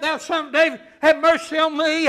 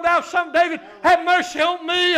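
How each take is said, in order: First: Preacher's raised-voice imitation of a plea; crying out. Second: Loud, high imitated plea from the pulpit; crying out more. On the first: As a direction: call out a loud plea mid-sermon. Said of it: "and he cries out". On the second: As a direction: cry it out with added push. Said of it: "he cried out the more".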